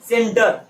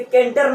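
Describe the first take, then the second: First: The word begins with an S sound. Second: The word begins with a K sound. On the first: The speaker calls it right. "सी को सा बोलते हैं" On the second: The speaker calls it wrong. "इसे केंटर नहीं बोलोगे भैया"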